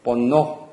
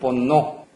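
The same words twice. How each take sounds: First: The last vowel is a full, rounded 'o'. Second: The last vowel is a full, rounded 'o'.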